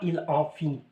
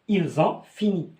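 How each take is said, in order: First: The words are said without the z link. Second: The final s links to ont as z. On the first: The speaker calls it wrong. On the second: The speaker calls it right.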